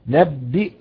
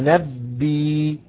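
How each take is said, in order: First: The word ends with a glottal stop. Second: The word ends with a long 'ee' vowel.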